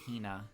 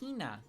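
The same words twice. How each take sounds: First: The first syllable gets no special emphasis. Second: The first syllable gets strong, drawn-out emphasis. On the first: "Instead of calling her just like Hina" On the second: "the real big enunciation on the he"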